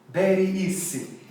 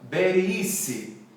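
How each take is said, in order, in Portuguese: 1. É dito com um b e um s com som de espanhol. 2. É dito com um b e um s com som de espanhol.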